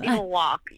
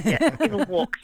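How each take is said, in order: First: Band name put into American; American accent. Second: Band name in an Australian accent. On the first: Singer translates the band name for hosts, American accent. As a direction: switch to American vowels for the name. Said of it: "in American". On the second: Singer shows host the band name at home, Australian accent. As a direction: say it with native Australian vowels. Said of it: "in my accent". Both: Shown as a demonstration.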